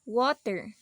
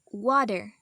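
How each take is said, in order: First: The middle t is a clear t sound. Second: The middle t sounds like a soft d. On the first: "We normally pronounce these words um something like this" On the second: "The T becomes D"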